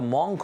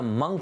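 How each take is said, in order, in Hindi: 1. स्वर 'hot' के 'o' जैसा लगता है। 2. स्वर 'cut' के 'u' जैसा लगता है। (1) "इट्स नॉट द मॉन्क" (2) "इस वर्ड का प्रोनाउंसिएशन है मंक, एम यू एन के"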